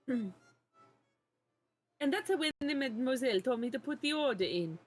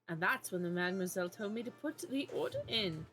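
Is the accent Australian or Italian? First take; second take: Italian; Australian. First: It is spoken in an Italian accent. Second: It is spoken in an Australian accent. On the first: The speaker calls it right. "I think he was Italian, actually" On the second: The speaker calls it wrong. "I gotta do my goddamn Australian accent"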